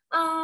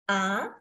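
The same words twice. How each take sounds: First: The pitch stays high and level. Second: The pitch rises upward. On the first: "datar dan tinggi" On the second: "nada dua adalah naik ke atas"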